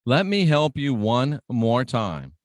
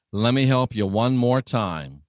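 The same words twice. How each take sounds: The two takes are said the same way.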